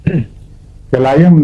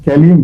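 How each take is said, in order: First: The middle vowel is a long 'eye' sound. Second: The middle vowel is a short 'ee' sound. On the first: The speaker calls it wrong. "कैलाइम नहीं है लफ्ज" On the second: The speaker calls it right. "कैलियम है"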